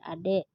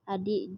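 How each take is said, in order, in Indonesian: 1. Vokal kedua terdengar seperti 'eh'. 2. Vokal kedua terdengar seperti 'ee'.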